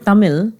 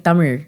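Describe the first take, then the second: First: The final consonant is a plain L sound. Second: The final consonant sounds like an American R.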